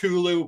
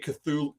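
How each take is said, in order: First: The name begins with a plain t sound. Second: The name begins with a th sound.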